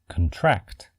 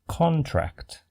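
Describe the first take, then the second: First: The stress is on the second syllable. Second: The stress is on the first syllable. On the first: It is used as a verb. "When used as a verb, we say" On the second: It is used as a noun. "When used as a noun, it is pronounced"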